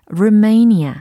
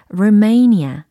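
First: The second syllable is a stressed, drawn-out 'may'. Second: The second syllable is a stressed, drawn-out 'may'.

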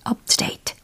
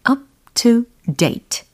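First: It is said fast, with the words run together. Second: It is said slowly, each word clearly separated.

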